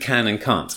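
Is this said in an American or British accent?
British. It is said in a British accent.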